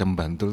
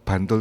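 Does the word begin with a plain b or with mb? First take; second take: mb; plain b. First: The word begins with a nasal mb sound. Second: The word begins with a plain b sound. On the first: "harus dibaca Bantul" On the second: "kalau Bantul"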